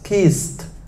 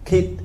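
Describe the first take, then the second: First: The s sound is kept before the final t. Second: The s sound is dropped before the final t. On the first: The speaker calls it right. "riêng từ kiss không bỏ cái gì cả" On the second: The speaker calls it wrong. "Còn em lúc nãy phát âm là kit"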